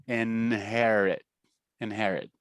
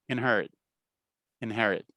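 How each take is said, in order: No difference in how they are said.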